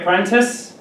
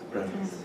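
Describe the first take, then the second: First: The T sound is clearly pronounced. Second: The T sound is dropped. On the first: "you can say apprentice" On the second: "here in North America, we say apprentice. We don't pronounce the T here"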